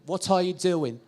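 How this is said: It is said in a British English accent. "and British being more rounded"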